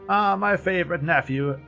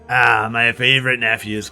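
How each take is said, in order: First: It is said in a plainer, less characterful voice. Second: It is said in a put-on character voice. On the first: The speaker calls it wrong. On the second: The speaker calls it right.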